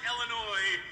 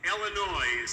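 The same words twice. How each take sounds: First: It is said in a standard accent. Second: It is said in an Indiana accent.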